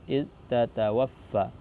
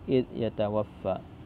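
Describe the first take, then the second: First: The verb starts with a t sound. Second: The verb starts with a y sound. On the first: This is one recognised reading of the verse. "double ta di situ" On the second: This is the other recognised reading of the verse. "selain Imam Ibnu Amir membaca dengan id yatawaffa"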